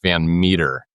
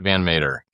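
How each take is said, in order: First: The surname sounds like the word 'meter'. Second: The surname's vowel differs from the vowel in 'meter'. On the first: The speaker calls it right. "It's Van Meter. Like like a meter stick" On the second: The speaker calls it wrong. "It's not Van Mater"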